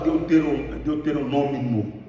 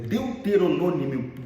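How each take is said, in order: First: The word ends with an extra 'm' sound: '-mimo'. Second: The word ends without an extra 'm': '-mio'. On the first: The speaker calls it wrong. "Por que, que o senhor fala deuteronômimo?" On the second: The speaker calls it right. "dá uma olhada"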